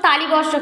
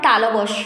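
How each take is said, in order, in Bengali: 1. প্রথম ধ্বনির পরে একটি অতিরিক্ত 'ই' স্বর আসে। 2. প্রথম ধ্বনির পরে কোনো অতিরিক্ত স্বর আসে না। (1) "তালিবস্য তালিবস্য কিন্তু না" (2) "কথাটা হবে তালবস্য"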